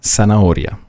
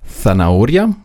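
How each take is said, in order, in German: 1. Das Z wird wie ein scharfes s ausgesprochen. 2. Das Z wird wie das englische th ausgesprochen. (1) "Die Südamerikaner würden sagen Zanahoria" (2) "Also würden die Spanier sagen Zanahoria"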